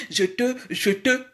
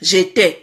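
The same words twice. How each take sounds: First: Mock "je te" with rounded schwa vowels, zhuh-tuh; "je te" mimicked as zhuh-tuh in mock French; affected accent. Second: Said in the usual way. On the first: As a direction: imitate his accent, flattening both vowels into "je te". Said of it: "yo komi, je te, je te, na accent". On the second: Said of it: "baloba j'étais".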